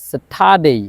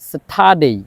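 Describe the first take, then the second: No difference in how they are said.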